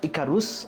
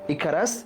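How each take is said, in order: First: The vowel after 'r' sounds like 'u'. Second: The vowel after 'r' sounds like 'a'. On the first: "ইকারাস, ইকারুস দুইটাই উচ্চারণ হয়" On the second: "ইকারাস, ইকারুস দুইটাই উচ্চারণ হয়"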